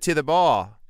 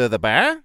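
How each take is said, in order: First: It is in an Australian accent. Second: It is in a New Zealand accent, rising upward. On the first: "Australians would say like, oi" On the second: "New Zealanders would say, ... it would be an upward"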